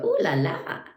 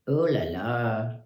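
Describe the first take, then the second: First: It sounds admiring and delighted. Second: It sounds exasperated and put upon. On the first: Someone finds something pretty. "if somebody thinks something is pretty" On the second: Someone is being bothered or inconvenienced. "when I forget my key and I go to ring somebody else's doorbell"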